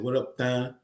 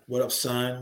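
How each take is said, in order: First: The last word begins with a lisped th sound. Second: The last word begins with a clear s sound. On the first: "He said, what up, Thun?" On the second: "instead of saying son"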